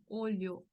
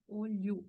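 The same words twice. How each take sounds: First: "olho" ending in a full o, "OH-lyo"; final O kept. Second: "olho" ending in oo, "OH-lyoo"; final O as U. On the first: Teacher gives the grammatical form, "olho" ending in O. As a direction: keep the last vowel of "olho" as O. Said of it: "lo que más se utilizaría". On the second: Teacher gives spoken Portuguese form, "olho" ending in U. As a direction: say "olho" with U at the end. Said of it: "sonido de U". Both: Shown as a demonstration.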